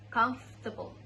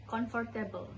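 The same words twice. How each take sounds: First: British-style "comfortable" as "kumf-tuh-bul"; three-syllable British "comfortable"; British accent. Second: Indonesian-style "comfortable", read as spelled; Indonesian pronunciation. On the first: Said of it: "In British accents, it sounds like". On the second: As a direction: say "comfortable" the Indonesian way, "con-for-teh-bel". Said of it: "In Indonesian, we usually say it like". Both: Shown as a demonstration.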